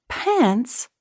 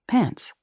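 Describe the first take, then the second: First: High, incredulous question; shocked echo. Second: Said in the usual way. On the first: A narrator's reading. Elizabeth echoing her husband in disbelief, shocked. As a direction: repeat it as if you misheard.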